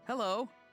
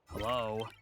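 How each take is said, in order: First: It is said in a happy tone. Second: It is said in a frustrated tone.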